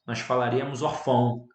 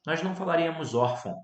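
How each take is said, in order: First: Orfão with the stress moved onto FÃO; wrong stress orfão. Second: Órfão with the stress on ÓR; right stress órfão. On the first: Teacher showing students the wrong orfão. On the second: Teacher contrasting órfão with the wrong orfão. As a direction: say órfão, stressing the first syllable ÓR. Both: Shown as a demonstration. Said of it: "se ele fosse um acento gráfico".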